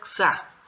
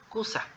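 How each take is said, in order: First: The u vowel is dropped completely. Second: The u vowel is fully voiced and clear. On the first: "no vamos a pronunciar" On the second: "si no fuera muda, diría"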